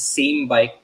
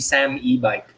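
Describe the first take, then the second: First: It is said as the word 'same' plus 'bike'. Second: It is said as 'Sam' plus 'e-bike'. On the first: "I read it as same bike" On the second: "some people are saying it's actually Sam e-bike"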